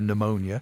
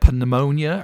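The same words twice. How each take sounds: First: The word begins without any p sound. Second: The word begins with a sounded p. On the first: "can't we just have pneumonia" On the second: "do we have to have pneumonia"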